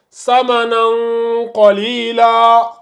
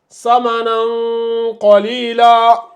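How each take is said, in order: Both takes have the same delivery.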